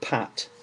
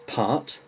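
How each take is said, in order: First: "pat" with a short A; English "pat", short A, clear T; without the R. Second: "part" with a long English AH, R itself silent; English "part", long open vowel, clear T. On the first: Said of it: "without the R". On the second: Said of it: "with the R". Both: Shown as a demonstration.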